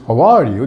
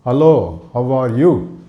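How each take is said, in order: First: "How are you" rising on ARE, then falling; "How are you" with a rise-fall tune; musical intonation. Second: "Hello, how are you" in separate, unmusical chunks; "Hello, how are you" as flat Indian English. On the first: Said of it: "even this". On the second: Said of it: "This is called flat Indian English". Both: Shown as a demonstration.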